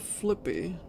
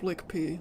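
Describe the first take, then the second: First: The name has no k sound before the p. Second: The name has a k sound before the p. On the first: This is the character's one real name. The speaker calls it right. "It's still Flippy" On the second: This is the version other people use in videos. The speaker calls it wrong. "That's how that's how people pronounce it"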